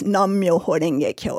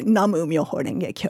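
First: The first word is a single syllable. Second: The first word has two syllables. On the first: "in the phrase" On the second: "or some people say"

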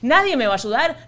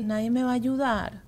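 First: It sounds frantic and overwhelmed. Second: It sounds pitiful, like baby talk.

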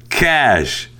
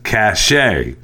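First: The word is said with one syllable. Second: The word is said with two syllables. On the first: The speaker calls it right. "C-A-C-H-E is pronounced cash" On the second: The speaker calls it wrong. "continually mispronouncing the word C-A-C-H-E as cachet"

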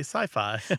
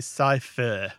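First: The second syllable rhymes with 'hi-fi'. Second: The second syllable keeps the vowel of 'fiction'. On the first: The speaker calls it right. "We say sci-fi. ... modeled on hi-fi" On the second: The speaker calls it wrong. "We don't say sci-fi"

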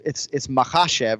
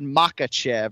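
First: The stress is on the second syllable. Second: The stress is not on the second syllable. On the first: The speaker calls it right. "So you're emphasizing the second syllable" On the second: The speaker calls it wrong. "he kind of said Makachev or whatever"

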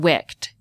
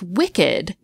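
First: The ending is just a t sound. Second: The ending is a separate syllable, ed. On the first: Something that has a wick. "We'd pronounce it wicked" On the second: Something evil. "why do we still pronounce wicked with two syllables?"

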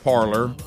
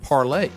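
First: The word ends with an 'or' sound. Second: The word ends with an 'ay' sound. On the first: This is how everyone says it. "everybody's saying parlor" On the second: This is how the French say it. "the French would say it parlay"

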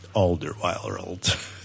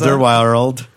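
First: The name is said in a dramatic movie voice. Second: The name is said in an ordinary speaking voice.

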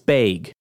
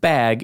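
First: It has a Wisconsin long A vowel. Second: It has a standard short a vowel.

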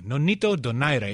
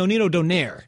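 First: The name is said with a Filipino-style pronunciation. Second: The name is said with an Anglicized pronunciation. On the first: The speaker calls it right. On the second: The speaker calls it wrong.

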